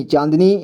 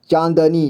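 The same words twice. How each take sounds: First: Said in the usual way. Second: चांदनी split as "chaan-da-nee"; चांदनी with द voiced as "da"; sounded out. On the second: Shown as a demonstration. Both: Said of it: "इसे [name] पढ़ेंगे".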